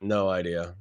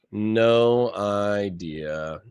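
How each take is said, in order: First: Said in the usual way. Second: "No idea" stretched very slowly; slow drawn-out no idea. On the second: Shown as a demonstration. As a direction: drag out "No idea" word by word.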